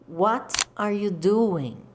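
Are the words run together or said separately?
separately. Each word is said separately and fully.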